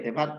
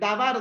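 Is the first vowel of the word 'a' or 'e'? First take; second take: e; a. First: The first vowel is a reduced 'e'. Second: The first vowel is a full 'a'. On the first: The speaker calls it right. "En sí es debar Yahvé" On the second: The speaker calls it wrong. "Aunque está mal dicho"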